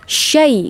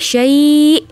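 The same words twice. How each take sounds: First: The vowel is short and said straight through. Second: The vowel is drawn out and lengthened. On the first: The reading continues without stopping. "langsung syai gitu" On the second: The reader stops at this word. "kalau dia berhenti, ya syai. Nah, itu harus dipanjangkan"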